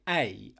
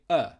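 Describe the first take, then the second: First: The vowel is a full, strong 'ay' sound. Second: The vowel is a short, weak 'uh' sound. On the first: The speaker calls it wrong. "we're not saying a" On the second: The speaker calls it right. "I'm saying uh, the schwa sound"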